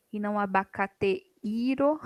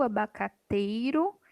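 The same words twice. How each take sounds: First: Abacateiro with e and i split apart; wrong split. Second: Abacateiro with ei as one glide, slowly; correct diphthong. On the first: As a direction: show abacateiro broken at the diphthong. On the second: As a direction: say abacateiro, keeping ei together. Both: Shown as a demonstration.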